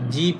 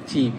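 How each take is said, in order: First: The word starts with a voiced j sound. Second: The word starts with a tense ch sound. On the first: The speaker calls it wrong. "এটা জিপ হবে না" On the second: The speaker calls it right. "তখন হবে পাং চিপ"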